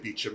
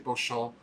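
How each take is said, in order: First: The name is said like 'Bee-chum'. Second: The name is said like 'Bo-shamp'. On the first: The speaker calls it wrong. "others say Beecham, and then you can get in trouble" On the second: The speaker calls it right. "Some people say Beauchamp, which is the correct way"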